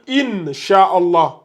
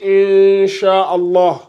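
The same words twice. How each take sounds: First: The n sound is pronounced fully and clearly. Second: The n sound is hidden with light nasalization. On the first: The speaker calls it wrong. "On va pas dire Inch'Allah" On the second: The speaker calls it right. "C'est une dissimulation avec nasillement"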